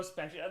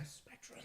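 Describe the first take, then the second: First: Said in the usual way. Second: Spectrum breathed out as a soft whisper. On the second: Real, not acted. Quietly pleading with the internet.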